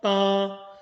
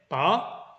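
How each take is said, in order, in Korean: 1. 처음부터 끝까지 음높이가 평평해요. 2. 음높이가 위로 올라가요. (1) "고르게 소리 내는 게 팔이고요" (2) "뽑아 올리는 건데요"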